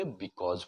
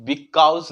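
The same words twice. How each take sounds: First: Because as "bi-kawz"; correct "aw" sound. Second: Because as "bi-kowz"; wrong "au" sound. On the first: Teacher giving the right way, said "bi-kawz". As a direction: say because with a pure open "aw". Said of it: "because बोलेंगे". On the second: Teacher showing what not to say, mispronounced "bi-kowz". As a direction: say because with an "ow" glide. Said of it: "नहीं बोल के". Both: Shown as a demonstration.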